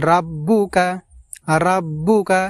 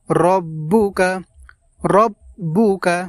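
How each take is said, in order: First: রাব্বুকা with a long open first vowel; wrong pronunciation. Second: রব্বুকা with a short rounded ro; correct pronunciation. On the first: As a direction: say রাব্বুকা, stretching the ra. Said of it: "এটা আমাদের ভুল হবে". (ভুল উচ্চারণ: রাব্বুকা) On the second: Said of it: "আমাদেরকে পড়তে হবে". (শুদ্ধ উচ্চারণ: রব্বুকা) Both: Shown as a demonstration.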